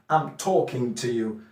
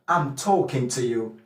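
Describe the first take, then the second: First: It is said in a standard British accent. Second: It is said in a Cockney accent. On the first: "The standard British English is talking" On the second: "a Cockney person with a Cockney accent will say toe"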